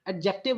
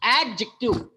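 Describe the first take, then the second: First: The syllables are stressed about evenly. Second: The stress falls clearly on the first syllable. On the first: The speaker calls it wrong. "Adjective नहीं है।" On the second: The speaker calls it right. "It pronounce as adjective"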